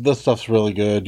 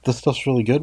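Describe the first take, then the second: First: Offhand doctor's assurance, retold; quick retold reassurance, falling away at the end; casual reassurance. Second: Incredulous echo. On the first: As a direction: brush off the worry, easy and a little low. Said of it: "Oh no, don't worry". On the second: Retold or imitated. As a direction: throw it back as a doubting question. Questions the doctor's assurance back.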